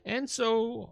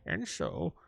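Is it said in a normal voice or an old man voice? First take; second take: normal voice; old man voice. First: It is said in the speaker's normal voice. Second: It is said in a put-on old man voice.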